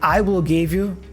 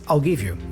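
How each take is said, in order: First: I will is said as two full words. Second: I will is contracted into one syllable.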